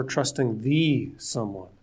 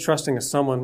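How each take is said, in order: First: "the" said as a long, drawn-out "thee"; slow down and lean on "the"; stress on THE. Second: Said in the usual way. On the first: Shown as a demonstration. Preacher singling out the Creator, slow stress on "the". Contrasts a someone with the someone.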